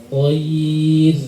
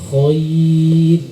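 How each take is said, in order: The two takes are said the same way.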